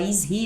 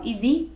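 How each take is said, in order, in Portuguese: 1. O h em 'he' é claramente pronunciado. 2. O h em 'he' é omitido, e as palavras se ligam. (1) "ao invés de falar" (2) "eles falam ... tirando essa pronúncia do H"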